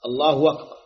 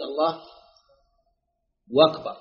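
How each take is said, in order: First: الله أكبر with the hamza of أكبر cleanly sounded; clear hamza. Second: الله أكبر run together as allahu wakbar; the muezzin's w-version; hamza turned to w. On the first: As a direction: keep the glottal stop of أكبر crisp. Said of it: "ببيان الهمزة". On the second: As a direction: slide into أكبر with a w sound. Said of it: "أن تقلب واوا". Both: Shown as a demonstration.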